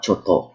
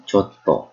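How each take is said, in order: First: Said in the usual way. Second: Chotto with a silent held tt; pause inside word. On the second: Shown as a demonstration. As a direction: stop on the tt in chotto, then release. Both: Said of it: "with that pause".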